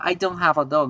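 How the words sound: It is said casually with a contraction. The speaker is simply stating a fact among friends. "si estoy hablando normal... no estoy siendo tan enfático"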